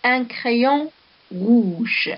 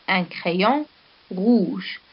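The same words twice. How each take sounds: First: Un crayon rouge said very slowly in one breath; teacher reading the example sentence very slowly. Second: Un crayon, a pause, then rouge; teacher pausing before rouge to show the adjective; split into chunks. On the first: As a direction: draw out the whole phrase Un crayon rouge for the class. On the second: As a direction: say Un crayon and set rouge apart after a pause. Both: Shown as a demonstration. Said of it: "Ici, nous avons un exemple".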